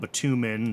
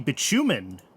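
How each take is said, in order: First: The middle consonant is a plain t sound. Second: The middle consonant is a ch sound.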